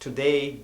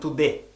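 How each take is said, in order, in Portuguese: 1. A última vogal desliza como 'ay'. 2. A última vogal é um 'eh' plano. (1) "o som do ei" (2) "eles falam e"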